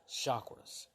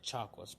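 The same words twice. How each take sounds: First: The word begins with a soft sh sound. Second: The word begins with a hard ch sound. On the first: This is how people from India say it. "they pronounce it chakras, like sh, sh, sh" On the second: This is how the speaker used to say it. "instead of chakras"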